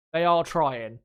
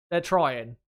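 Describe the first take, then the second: First: "are" pressed firmly and a little louder; stress on ARE. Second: Said in the usual way. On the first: Real, not acted. Insisting the drivers really are trying, stress on "are". Restating for emphasis.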